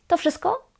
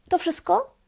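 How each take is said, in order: Both takes have the same delivery.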